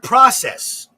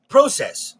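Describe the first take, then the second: First: "process" said with a short open ah, PRAH-sess; American pronunciation. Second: "process" said with a long O, PROH-sess; Canadian pronunciation. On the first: Host showing the usual word, "process" as PRAH-sess. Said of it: "found out a couple years ago". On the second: Host explaining the Canadian word, "process" as PROH-sess. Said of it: "in Canada, it's called process". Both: Shown as a demonstration.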